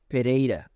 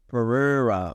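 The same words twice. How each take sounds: First: The name is said with a Brazilian Portuguese pronunciation. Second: The name is said with an English pronunciation. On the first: "So Brazilian Portuguese" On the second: "in English, they pronounce it Pereira"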